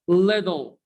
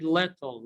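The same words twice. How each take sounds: First: Little with tt as d, liddle; American flap t. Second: Little with a true t sound; British-style t. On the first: Teacher answering own question, d sound in little. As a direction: say little as if spelt with d. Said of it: "Double T here are pronounced what? D". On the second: Teacher warning learners off it, clear t in little. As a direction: keep the tt in little a crisp t. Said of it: "Don't pronounce it little". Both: Shown as a demonstration.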